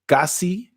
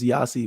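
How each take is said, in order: First: The name begins with a hard G sound. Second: The name begins with a Y sound.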